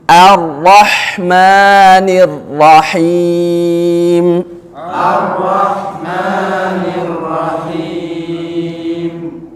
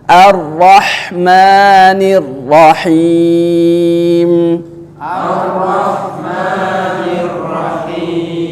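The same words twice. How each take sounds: The two takes are said the same way.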